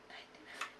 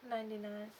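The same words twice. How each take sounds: First: It is whispered very quietly. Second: It is spoken in a normal voice.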